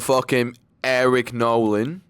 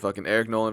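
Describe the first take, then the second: First: It is said in an Australian accent. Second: It is said in his usual accent.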